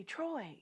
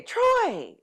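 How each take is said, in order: First: Faint, small call of a name, much softer; barely able to call out, drained; weak call. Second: Called out higher and louder, pushing harder. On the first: Sick wife calling her husband weakly from the bathroom. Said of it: "And I say". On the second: Wife calls her husband louder as the inner voice urges. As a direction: raise the call, straining to be heard. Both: Retold or imitated.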